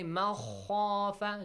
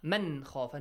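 First: The n sound is dropped and merged into kh. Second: The n sound is clearly pronounced before kh. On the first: The speaker calls it wrong. "Do not say مَخَافَ Do not merge it" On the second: The speaker calls it right. "Nun is clear, man. Yeah. Do not change it"

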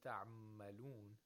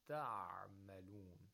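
First: The ain is cut short, blending into the meem. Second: The ain is held a little longer before the meem. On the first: The speaker calls it wrong. "If you say تعملون, that's incorrect" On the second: The speaker calls it right. "So it should be a little longer"

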